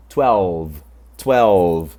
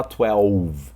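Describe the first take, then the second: First: Twelve with a true English L before the v; clear L sound. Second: Twelve with the L turned into a U, like twe-uv; wrong U sound. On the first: Teacher modelling "twelve" for learners with a sounded L. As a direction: hold the L in twelve, slowly. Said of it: "é sempre com som de L". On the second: Teacher showing the mistake to avoid, "twelve" with U for L. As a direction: say twelve with a U glide for the L. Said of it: "Não é com som de U". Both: Shown as a demonstration.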